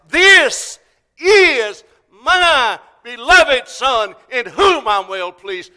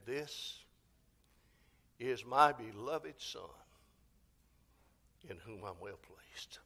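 First: Very loud, high, each word stretched out; God's loudest voice. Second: Soft, slow words fading to a near whisper; hushed, measured divine pronouncement; God speaking from heaven. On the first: God to the entire world at the resurrection, loudest voice. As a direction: thunder it out slowly, word by word. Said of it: "said it with the loudest voice". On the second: God the Father speaks at the baptism of Jesus, hushed. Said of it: "God the Father spoke from heaven". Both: Acted.

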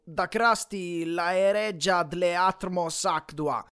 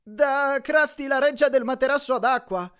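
First: "Da Krusty la reggia dle atmos actua" sounded out slowly and jumbled; "dle atmos actua" read slowly like scrambled letters; garbled reading. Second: "del materasso ad acqua" said clearly in a high, louder Grover voice; Grover translating. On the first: Retold or imitated. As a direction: stumble slowly through "dle atmos actua" as a misread sign. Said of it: "diceva qualcosa tipo". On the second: Acted. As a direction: correct the sign brightly in a higher voice. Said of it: "tradusse Grover".

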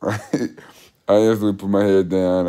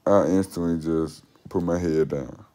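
First: Laughing. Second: Said in the usual way. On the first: Real, not acted.

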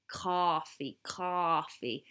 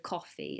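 First: Coffee with an American open "ah"; American accent. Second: Said in the usual way. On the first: Shown as a demonstration. British vlogger practising coffee, American accent. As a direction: stretch coffee as "cahfee", American style. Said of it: "you have to do, like, the O". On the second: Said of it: "instead of coffee".

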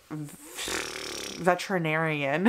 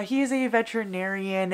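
First: Hesitant, broken-up veterinarian; stumbled word. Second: Said in the usual way. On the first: Real, not acted. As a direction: trip over saying veterinarian slowly. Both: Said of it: "why that took me so long to say".

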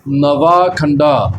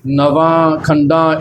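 First: Slow "ਨਵਾਂ ਖੰਡਾ" with both final vowels oral, not nasal; no nasal sound at the ends of "ਨਵਾਂ ਖੰਡਾ"; without bindi. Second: Slow "ਨਵਾਂ ਖੰਡਾ" with nasal final vowels; with bindi. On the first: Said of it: "ਬਿਨਾਂ ਬਿੰਦੀਆਂ ਤੋਂ ਹੀ". ("ਨਵਾਂ ਖੰਡਾ" ਬਿਨਾਂ ਬਿੰਦੀ) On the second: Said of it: "ਬਿੰਦੀਆਂ ਲਾ ਕੇ ਉਚਾਰਨ ਨਹੀਂ ਕਰਨਾ". ("ਨਵਾਂ ਖੰਡਾ" ਬਿੰਦੀਆਂ ਲਾ ਕੇ) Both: Shown as a demonstration.

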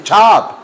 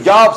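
First: "job" with a hard ch-like start; drawn-out "job" opening on a crisp ch sound; correct "job". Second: Spanish-style y sound opening "job"; wrong "job". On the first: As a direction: stretch "job" as "chab". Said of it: "se dice job". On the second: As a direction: begin "job" like "yab". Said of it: "que no se dice job". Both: Shown as a demonstration.

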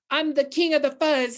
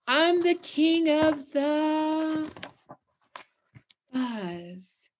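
First: A hint of a snarling bully; snarled king boast. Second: Drawn-out boast. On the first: A narrator's reading. Teacher reading Big Bark boasting to the town, lightly snarled. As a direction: snarl it out like a bragging prairie dog. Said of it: "he snarled". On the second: Shown as a demonstration. Teacher repeating the boast slowly for the class, drawn out. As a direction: stretch it out, then let fuzz sink. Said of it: "Did they hear me?".

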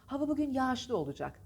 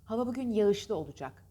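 First: Smooth long a in yağışlı; spoken form. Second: Yağışlı as "ya-ışlı", ı audible; spelling pronunciation. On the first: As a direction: drop the first ı in yağışlı. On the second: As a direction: sound out yağışlı as written. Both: Shown as a demonstration. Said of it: "Tabii ki ikincisi".

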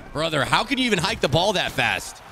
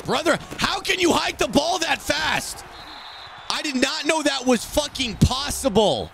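First: Said in the usual way. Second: High, slow, drawn-out holler; incredulous high-pitched rant; exasperated yell. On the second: Real, not acted. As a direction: yell each word in outraged disbelief. Exasperated gamer yells at opponent.

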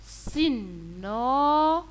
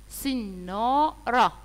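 First: "سنارة" drawn out even longer with a rising end; very slow teaching word. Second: "سنارة" stretched slowly with a falling end; slow teaching word. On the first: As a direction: stretch "سنارة" very slowly, lifting it like a question. (نطق "سنارة" ببطء شديد مع نغمة صاعدة) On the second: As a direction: draw out "سنارة" for young pupils and let it fall. (نطق "سنارة" ببطء مع نغمة هابطة) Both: Shown as a demonstration. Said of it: "صورة".

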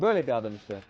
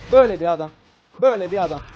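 First: Said in the usual way. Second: Louder, punchy repeat of Böyle bir adam; emphatic repeat. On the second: Real, not acted. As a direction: hammer the point home.

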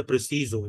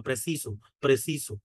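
First: প্রেসিজো with a buzzing Z in the last syllable; Portuguese Z sound. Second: প্রেসিসো with a hissed S in the last syllable; Spanish S sound. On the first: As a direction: say প্রেসিজো as pre-si-zo. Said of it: "এটা জয়ের মতো উচ্চারণ হচ্ছে". (প্রেসিজো, শেষে জ ধ্বনি) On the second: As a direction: say প্রেসিসো as pre-si-so. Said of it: "এরকম করে উচ্চারণ হয়". (প্রেসিসো, শেষে স ধ্বনি) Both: Shown as a demonstration.

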